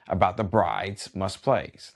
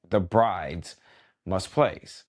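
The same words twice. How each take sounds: First: Said in the usual way. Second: "The bride's ... must plays" spaced out, each word weighed; stress on bride's must plays. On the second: Shown as a demonstration. DJ repeating the guest's gripe, slow and pointed. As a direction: pause before "must plays" and lean on it. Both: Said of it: "Let me repeat that".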